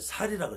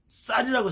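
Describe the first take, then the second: First: The first consonant is plain, Gyeongsang style. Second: The first consonant is tense, standard style.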